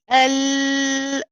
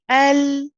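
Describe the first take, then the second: First: The L sound is held too long. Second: The L sound is held briefly, then stopped. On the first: The speaker calls it wrong. "we don't say L, that's too long" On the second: The speaker calls it right. "just enough to establish the letter, then you stop"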